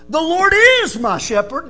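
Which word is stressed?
is. The stress falls on the word "is".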